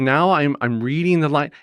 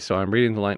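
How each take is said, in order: First: It is read with a smiling voice. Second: It is read plainly, without a smile.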